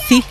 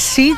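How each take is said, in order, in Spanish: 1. La palabra empieza con una z cecea. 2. La palabra empieza con una s silbante. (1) "Mi marido habla más con la C" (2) "En vez de decir sí"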